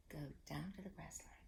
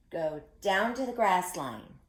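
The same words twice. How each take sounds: First: Soft unvoiced whisper of Go down to the grass line. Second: Said in the usual way. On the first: Shown as a demonstration. Teacher whispering the echo for the kids. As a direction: breathe the words with no voice. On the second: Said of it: "you say it after me".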